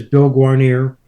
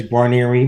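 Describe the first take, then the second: First: GUARNIER ending in "-neer", no final vowel; family name variant. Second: GUARNIERI with a final "ee" sound; family name variant. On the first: Son showing how his father says the surname, pronunciation demo. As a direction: say "Guarnier" with a last syllable like "near". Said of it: "my father says Bill Guarnier". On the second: Son showing how his brother says the surname, pronunciation demo. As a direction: say "Guarnieri" ending in "-ee". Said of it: "My brother says Guarnieri". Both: Shown as a demonstration.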